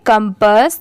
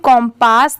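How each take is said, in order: First: The first vowel is a short 'uh' sound. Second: The first vowel is an open 'o' sound. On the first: The speaker calls it right. "इसे हम क्या pronounce करेंगे कंपस" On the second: The speaker calls it wrong. "इसकी pronunciation कॉम्पास नहीं होगा"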